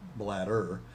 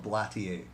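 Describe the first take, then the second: First: The middle consonant sounds like a soft d. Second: The word ends with a French-style ending. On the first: It sounds like the body organ. "not bladder" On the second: It is made in Montreal. "maybe you pronounce it Blatier"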